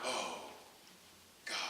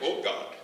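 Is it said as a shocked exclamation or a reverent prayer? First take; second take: reverent prayer; shocked exclamation. First: It sounds like a reverent calling of God's name. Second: It sounds like a shocked, pained exclamation.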